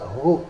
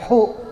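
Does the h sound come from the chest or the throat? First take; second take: chest; throat. First: The h is breathed softly from the chest. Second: The h is pushed harshly from the throat. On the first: The speaker calls it right. "Jadi bunyinya sama di dada" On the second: The speaker calls it wrong. "Jangan hu"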